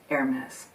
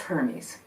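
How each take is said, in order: First: The name is said with a French accent. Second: The name is said with a plain English accent. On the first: "if spun with a French accent" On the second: "His name in Greek was"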